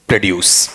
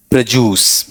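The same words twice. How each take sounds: First: "प्रोड्यूस" with d-y, as pre-DYOOS; lower, falling "प्रोड्यूस" with separate d and y sounds; usual pronunciation. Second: "प्रोड्यूस" with j, as pruh-JOOS; purified pronunciation. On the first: Teacher echoing how students read it, usual pronunciation. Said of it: "ऐसा ही पढ़ते हो ना?". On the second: Teacher revealing the most refined version, purified pronunciation. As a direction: turn the dy of "प्रोड्यूस" into a j sound. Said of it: "वो पता है उच्चारण क्या रहता है". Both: Shown as a demonstration.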